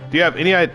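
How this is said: It is said in his natural speaking voice. The speaker calls it wrong. "it made me do my regular voice"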